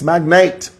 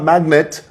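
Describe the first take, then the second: First: The last syllable sounds like 'nate'. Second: The last syllable sounds like 'net'. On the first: The speaker calls it right. "it's Magnate" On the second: The speaker calls it wrong. "it's not Magnet"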